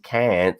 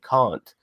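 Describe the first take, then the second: First: The word is said in an American accent. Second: The word is said in a non-American accent. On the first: "American accented aliens" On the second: "say some of the words in a different style"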